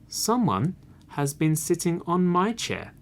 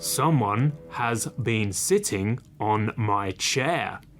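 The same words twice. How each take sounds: First: It is said in a middle-sized voice. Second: It is said in a great big voice.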